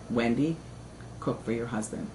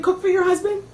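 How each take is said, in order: First: Much lower and softer, a grave fatherly order; stern father. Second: Higher, lightly voiced mother chiming in; mother's voice. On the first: Retold or imitated. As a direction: lay down the law quietly, deep in the chest. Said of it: "My father says". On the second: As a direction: pitch it up like mom agreeing. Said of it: "They're on the speakerphone with my father saying".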